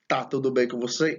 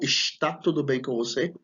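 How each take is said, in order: First: The first word is said in a shortened form. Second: The first word is said in its full form.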